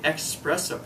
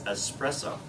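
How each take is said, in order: First: It begins with 'ex', with a k sound. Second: It begins with 'es', with no k sound. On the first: The speaker calls it wrong. "we often say espresso ... like express" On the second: The speaker calls it right. "the correct pronunciation of the word, I believe, is espresso"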